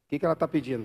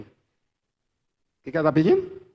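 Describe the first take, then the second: First: Said in the usual way. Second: "pedindo" esticado, subindo no final, devagar e mais forte; pergunta enfática. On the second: Shown as a demonstration. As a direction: arraste a pergunta e suba em "pedindo". (pregador repete a pergunta devagar à igreja, subindo em "pedindo") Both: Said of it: "repetição enfática".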